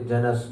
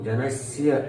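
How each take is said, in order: First: The word ends on 's' without a final 'ya'. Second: A pressed 's' is followed by a final 'ya'. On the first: The speaker calls it wrong. "कई लोग बोलते जनस, जनस नहीं" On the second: The speaker calls it right. "अंत में या आधा सा को दबाएंगे तो या का उच्चारण होगा"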